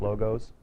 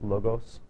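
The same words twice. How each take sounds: First: The final S sounds like a plural ending. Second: The final S sounds unlike a plural ending. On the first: It is just the plural of logo. The speaker calls it wrong. "It's not logos" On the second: It is the Greek term, not a plural. The speaker calls it right. "with a um, different sound on the S"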